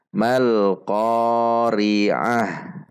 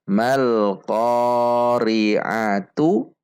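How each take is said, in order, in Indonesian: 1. Kata itu berakhir dengan 'h' berdesah. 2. Kata itu berakhir dengan suku kata 'tu'. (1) "diwakafkan sehingga ta marbutah ini menjadi sukun dan dibaca ha" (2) "ta marbutah lummah tu"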